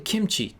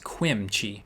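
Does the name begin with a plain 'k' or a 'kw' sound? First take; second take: k; kw. First: The name begins with a plain 'k' sound. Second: The name begins with a 'kw' sound. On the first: The speaker calls it right. "It's probably kimchi" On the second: The speaker calls it wrong. "use Q to be actually pronounced as Quimchi"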